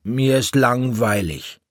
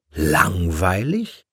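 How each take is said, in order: First: Put-on high child's whine of boredom, falling at the end; bored little boy, pitched up then falling; bored complaint. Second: LANGWEILIG drawn out slowly, rising to a question; slow, questioning "Langweilig?" with a rising end; incredulous echo. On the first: Bored child complains to his mother. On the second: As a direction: stretch "Langweilig" and swing it upward in disbelief. Mother echoes his word in disbelief. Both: A narrator's reading.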